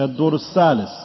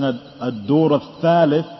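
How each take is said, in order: First: The last word begins with an 's' sound. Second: The last word begins with a 'th' sound. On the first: The speaker calls it wrong. "the tha, it's lightly till it becomes like a seen" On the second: The speaker calls it right. "Instead of saying"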